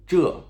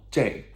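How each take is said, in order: First: "这" as zhe, with an uh vowel; slow, falling "这", rhyming with duh; standard pronunciation. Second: "这" as zhei, like English jay; slow, falling "这", rhyming with day; colloquial pronunciation. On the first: Teacher contrasting two forms of this, standard one. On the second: Teacher contrasting two forms of this, colloquial one. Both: Shown as a demonstration. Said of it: "usually pronounced as J".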